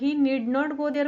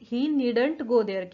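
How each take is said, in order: First: Need and not are said as two words. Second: Need not is contracted to one word.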